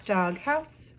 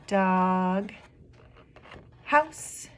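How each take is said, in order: First: Said in the usual way. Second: Syllable by syllable. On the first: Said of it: "two syllables in that word". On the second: Shown as a demonstration. Teacher showing two syllables in a word, broken apart. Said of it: "there's two syllables in that word".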